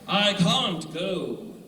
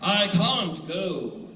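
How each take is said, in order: First: The phrase is said in a British accent. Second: The same.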